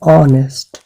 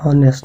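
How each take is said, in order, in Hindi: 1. इस शब्द की शुरुआत स्वर से होती है, इसमें h नहीं है। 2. इस शब्द की शुरुआत में h की आवाज़ सुनाई देती है। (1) "this is ऑनेस्ट" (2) "but this is not हॉनेस्ट"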